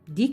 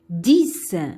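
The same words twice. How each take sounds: First: The word ends with no s sound. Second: The word ends with a clear s sound. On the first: "X à la fin, mais on ne prononce pas" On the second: "Le X et se prononce S à la fin"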